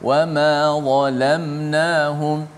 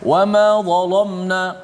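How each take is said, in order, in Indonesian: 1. Bunyi l itu tipis dan ringan. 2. Bunyi l itu tebal dan berat. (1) "lam tu kembali nipis" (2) "dia ambil lam tu ditebal juga mengikut dha tu, maka salah"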